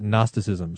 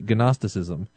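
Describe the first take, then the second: First: The initial g is silent. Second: The initial g is pronounced. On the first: This is how most people say it. The speaker calls it right. "everyone else pronounces it gnosticism" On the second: The speaker refuses to leave letters silent. The speaker calls it wrong. "I am against pronunciation discrimination, which is why I say Gnosticism"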